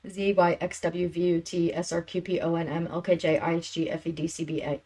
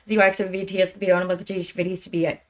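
First: The letters are said more slowly. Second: The letters are said very fast.

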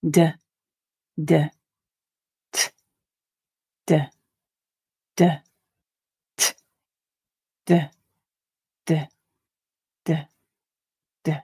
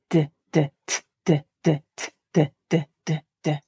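First: The sounds are read at a slow pace. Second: The sounds are read at a quick pace. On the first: "We'll read them once quite slowly" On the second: "And a bit more quickly"

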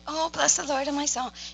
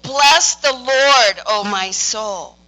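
First: It is said softly, like a gentle wish. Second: It is said firmly, like a command.

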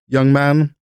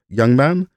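First: It is said in the speaker's ordinary accent. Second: It is said with an imitated Hungarian accent.

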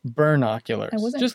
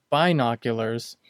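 First: The first syllable sounds like 'burn'. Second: The first syllable sounds like 'bin'. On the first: "I used to say a word, ... B-E-R-N-O-C-ulars" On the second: "So not binoculars"

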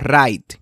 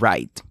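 First: The R is trilled. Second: The R is a soft English R. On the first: The speaker calls it wrong. "No right" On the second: The speaker calls it right. "Sino ... and right"

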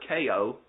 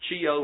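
First: The word begins with a k sound. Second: The word begins with a ch sound. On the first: "I don't know whether it's a ch or a k in Greek" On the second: "I don't know whether it's a ch or a k in Greek"

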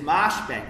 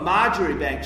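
First: The name is said not as it is spelt. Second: The name is said as it is spelt.

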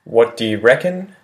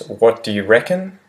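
Both takes have the same delivery.

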